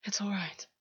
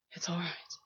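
First: Soft, gentle reassurance; said softly. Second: Breathy whispered reassurance. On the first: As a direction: soothe him gently. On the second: August whispering comfort into Gwen's ear. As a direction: drop all voice and whisper it close. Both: A narrator's reading. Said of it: "August said softly".

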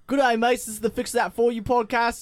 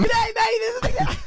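First: Aussie greeting, a little higher; lightly pushed Australian podcast intro; put-on Aussie accent. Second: Manic squealed Aussie greeting, extremely high; crazed, very high mock intro; going mad. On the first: Shown as a demonstration. Host retrying his intro, put-on Aussie accent. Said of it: "just talk in your normal voice". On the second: Host who can't be stopped repeating his intro, going mad. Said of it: "He's going mad".

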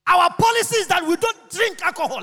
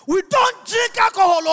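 First: Said in the usual way. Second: DON'T shouted high and hard; emphatic shout. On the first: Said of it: "Let me make it clear". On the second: Real, not acted. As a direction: hammer the word don't like a preacher. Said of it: "Listen to me. Let me make it clear".

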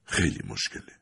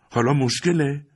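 First: Soft, low, resigned father's reply; hushed and weary; quiet father. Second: High, bitter echo of مشکله; a hurt teenager's mocking question; indignant son. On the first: A narrator's reading. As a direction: say it quietly, heavy with doubt. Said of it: "پدر آرام گفت". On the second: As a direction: fling the word مشکله back, pitched up. Son throws father's word back.

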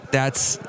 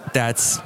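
The two takes are said the same way.

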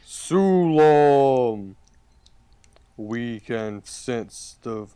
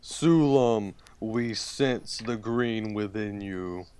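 First: Talking tree. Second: Lightly voiced ancient tree; talking tree. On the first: Acted. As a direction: speak as an ancient living tree. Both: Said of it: "It goes".

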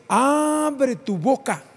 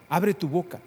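First: "Abre tu boca" much higher, louder and very slow; proclaimed verse. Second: Said in the usual way. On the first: Shown as a demonstration. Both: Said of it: "repeated verse".

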